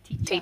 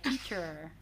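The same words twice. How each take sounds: First: The word ends with a plain vowel, no R. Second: The word ends with a clear R sound. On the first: "in British English that is a schwa sound. So we say teacher" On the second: "in American English there's more of a er. So they say teacher"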